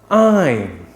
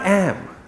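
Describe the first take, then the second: First: It sounds like eye plus m. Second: It sounds like am. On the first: The speaker calls it right. "it's I plus mm" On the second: The speaker calls it wrong. "It's not am"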